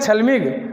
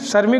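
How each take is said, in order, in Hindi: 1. यह शब्द l की ध्वनि के साथ बोला जाता है। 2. यह शब्द r की ध्वनि के साथ बोला जाता है। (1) "रे की जगह ले का उच्चारण" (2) "श्रमिक को कहते हैं"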